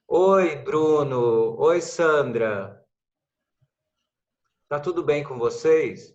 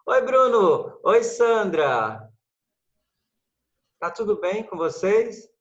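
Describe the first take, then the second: First: Slow greetings with long silences between them; stilted greetings spaced far apart; long pauses between greetings. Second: Greetings with the gaps filled, a little higher and louder; lively greeting with the pauses filled. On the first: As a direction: leave a long empty pause after each greeting. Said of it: "Ninguém faz isso na vida real". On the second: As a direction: keep the voice going so no silence hangs. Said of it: "A gente sempre enche as pausas". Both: Shown as a demonstration.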